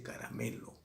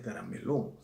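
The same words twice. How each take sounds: First: "caramelo" stressed on ME, soft falling last syllable; correct stress on ME. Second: "carameló" stressed on the final LÓ; wrong final stress. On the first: Teacher giving the correction, "caramelo" stressed on ME. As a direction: lean on ME in "caramelo", let LO drop. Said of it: "se dice caramelo". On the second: Teacher correcting a speaker, quoting "carameló" with final stress. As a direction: put the weight on the last syllable of "carameló". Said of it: "no se dice carameló". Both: Shown as a demonstration.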